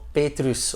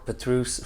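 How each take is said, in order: First: The name is said with a Dutch pronunciation. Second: The name is said with an English pronunciation.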